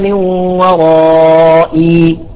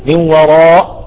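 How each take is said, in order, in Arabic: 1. تنتهي الكلمة بياء ممدودة. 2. تنتهي الكلمة فجأة بهمزة الوقف. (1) "نقف عليها وإني خفت الموالي من ورائي" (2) "ما نقول من وراء"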